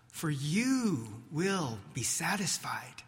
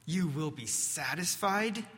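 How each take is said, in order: First: Said in the usual way. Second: Muttered mockery. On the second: Peter doubting Jesus' promise to himself, in a mild muttered scoff. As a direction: scoff at it privately, barely moving the voice. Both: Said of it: "Peter mutters to himself".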